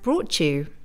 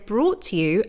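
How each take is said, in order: First: The t sound changes, blending into the next word. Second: The t sound stays clear and separate.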